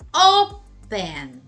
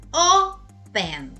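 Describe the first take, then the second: First: The stress is on the first syllable. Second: The same.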